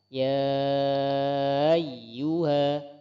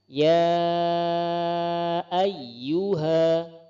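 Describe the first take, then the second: First: The hamzah is dragged and blurred into the vowel. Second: The hamzah is pronounced clearly as a distinct stop. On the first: The speaker calls it wrong. "contoh yang kurang tepat adalah ya ayyuha, membacanya dengan cara diseret" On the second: The speaker calls it right.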